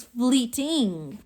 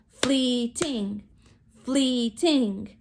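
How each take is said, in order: First: Said in the usual way. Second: "fleeting" drawn into two beats, flee-ting; syllables broken apart. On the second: Shown as a demonstration. Teacher has class break apart syllables, flee-ting in beats. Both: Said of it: "Break apart your syllables".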